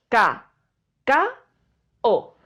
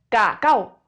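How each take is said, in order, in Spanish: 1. La palabra se divide en sílabas separadas. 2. La palabra se dice de corrido, en una sola pieza. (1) "forman parte de sílabas diferentes" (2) "No decimos cacao"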